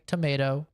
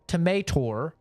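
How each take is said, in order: First: The word ends in a plain vowel. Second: The word ends with an added R sound. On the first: The speaker calls it right. "Some people say tomato" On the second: The speaker calls it wrong. "if you were to say tomator, no, that's wrong"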